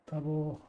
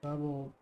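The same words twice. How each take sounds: The two takes are said the same way.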